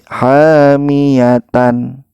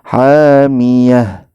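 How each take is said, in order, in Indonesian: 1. Kata ini berakhir dengan suku kata tan. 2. Kata ini berakhir dengan bunyi h. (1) "Jangan sampai" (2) "khusus untuk ta ini kita sukunkan"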